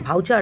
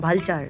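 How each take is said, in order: First: It has no l sound before the ch. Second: It has an l sound before the ch. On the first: The speaker calls it wrong. "ভাউচার না" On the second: The speaker calls it right.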